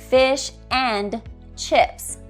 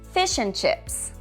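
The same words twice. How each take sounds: First: The word 'and' is stressed and full. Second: The word 'and' is weak and reduced.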